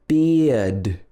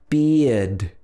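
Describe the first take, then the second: No difference in how they are said.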